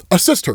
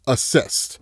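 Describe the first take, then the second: First: Said in the usual way. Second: Whispered answer. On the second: Retold or imitated. Batman solves the riddle quietly.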